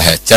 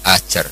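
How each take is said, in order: First: The name begins with a breathy h sound. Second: The name begins with a glottal catch. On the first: Some texts write it with the letter ha. "ada yang ditulis dengan hak" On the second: Some texts write it with hamzah. "ditulis pakai apa? Hamzah"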